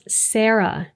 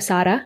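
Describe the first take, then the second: First: It is said with an American Midwestern accent. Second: It is said with Spanish pronunciation. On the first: "with her Michigan accent" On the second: "all of my Colombian friends and even my husband would say"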